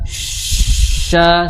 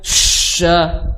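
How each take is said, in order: First: The sh sound is soft and light. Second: The sh sound is pushed out forcefully. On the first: The speaker calls it right. "Jadi cukup sha sha seperti itu" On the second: The speaker calls it wrong. "bukan sha ya"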